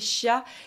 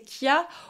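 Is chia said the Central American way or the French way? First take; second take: French; Central American. First: It is pronounced the French way. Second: It is pronounced the Central American way. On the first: "d'une façon plus francisée" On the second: "plus comme il le prononce là-bas"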